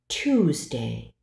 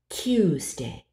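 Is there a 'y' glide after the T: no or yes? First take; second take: no; yes. First: It is said without a 'y' glide after T. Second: It is said with a 'y' glide after T. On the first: "alternating between a word without pronouncing the J glide" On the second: "and then adding it"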